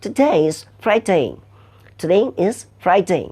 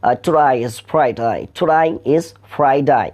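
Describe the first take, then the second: First: Slow British "today is Friday", crisp "day"; British accent. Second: Slow Australian "today is Friday" with "today" sounding like "to die"; broad Australian "today is Friday", "day" said as "die"; Australian accent. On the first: Teacher shows students the British way, slow British accent. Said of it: "ব্রিটিশরা বলছে". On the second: Teacher shows students the Australian way, slow Australian accent. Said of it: "অস্ট্রেলিয়ানরা সেখানে বলছে". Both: Shown as a demonstration.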